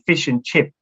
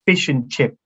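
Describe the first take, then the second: First: The final s sound of chips is dropped. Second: The same.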